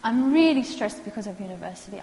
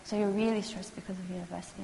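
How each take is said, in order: First: A bit louder, matter-of-fact client complaint; plain client statement, lightly voiced; client stating stress. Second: Softer, gentle questioning echo; quiet, tentative counselor reflection. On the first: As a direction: say it as the stressed student would. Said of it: "when a person says to me". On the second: Shown as a demonstration. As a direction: hand it back softly, checking. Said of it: "I'm very tentative".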